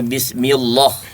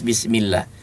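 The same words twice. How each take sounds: First: The L sound in Allah is heavy and thick. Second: The L sound in Allah is light and thin. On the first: The speaker calls it wrong. "Tidak dibaca bismillah ya" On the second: The speaker calls it right. "Jadi dibaca tipis"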